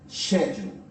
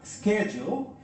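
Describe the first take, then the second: First: It is said with a British or Australian pronunciation. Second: It is said with an American pronunciation. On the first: "in British or Australian English, you're going to listen schedule" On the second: "in American English, you'll have schedule"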